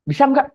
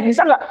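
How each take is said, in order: First: High nagging question. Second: "Bisa nggak?" asked high with a rise on "nggak"; high nagging question. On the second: Teacher pestering a confused student, asking high and rising. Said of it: "keluar hujan ditanya". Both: Shown as a demonstration.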